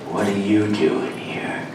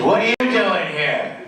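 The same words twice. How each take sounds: First: It is said quietly with a suspicious tone. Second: It is said loudly, projected across a room. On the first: The speaker distrusts the person. "what if they wanted it more suspicious?" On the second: The person addressed is far away. "What if the guy's at the back of the room?"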